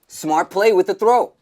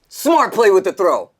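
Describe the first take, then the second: First: It is said with less energy and excitement. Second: It is said with more energy and excitement.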